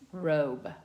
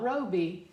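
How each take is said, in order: First: The final E is silent, one syllable. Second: The final E is sounded as an extra syllable. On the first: The speaker calls it right. "because remember it's shh, silent. It's robe" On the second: The speaker calls it wrong. "Not roby"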